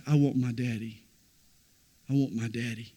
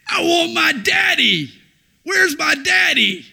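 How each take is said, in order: First: Put-on soft, lower, hushed child's plea; preacher hushes the child's cry into a quiet echo. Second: Put-on high, loud child's scream. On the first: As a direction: let it almost fade away. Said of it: "When Jesus said". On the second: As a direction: scream for daddy like a terrified toddler. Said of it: "just screaming at the top of his lungs".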